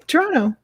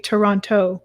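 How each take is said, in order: First: The T sounds are softened, not fully pronounced. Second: Both T sounds are fully and clearly pronounced. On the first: A local from the city says it. "We just say Toronto" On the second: An outsider to the city says it. "fully and completely pronounce the T's ... We don't say Toronto"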